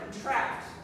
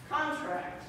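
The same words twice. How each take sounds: First: The stress is on the second syllable. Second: The stress is on the first syllable. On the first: It is a verb meaning to get smaller. "there's a verb" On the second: It is a noun meaning an agreement. "Stress on the first syllable is a noun"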